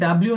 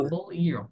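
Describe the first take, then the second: First: It is run together into one word. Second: It is said as two separate parts. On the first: The speaker calls it wrong. "এটা ডাব্লিউ না কিন্তু" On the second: The speaker calls it right. "ডাবল ইউ এখানে আছে"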